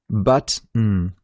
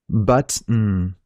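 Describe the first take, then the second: First: A short pause separates the two parts. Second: A short pause separates the two parts.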